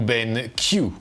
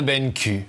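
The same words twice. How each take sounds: First: The name is pronounced with English sounds. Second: The name is pronounced with French sounds.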